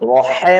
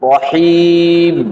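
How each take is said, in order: First: The second vowel is a short 'e' sound. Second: The second vowel is a long 'ee' sound. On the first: The speaker calls it wrong. "রহেম না" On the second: The speaker calls it right.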